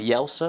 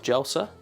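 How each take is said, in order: First: The name begins with a Y sound. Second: The name begins with an English J sound. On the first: The speaker calls it right. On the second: The speaker calls it wrong.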